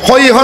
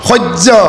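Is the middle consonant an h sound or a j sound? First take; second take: h sound; j sound. First: The middle consonant is an h sound. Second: The middle consonant is a j sound. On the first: The speaker calls it wrong. "নহয়" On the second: The speaker calls it right. "হৰ পাছত যদি জকাৰ থাকে তাৰ উচ্চাৰণ জ হ'ব"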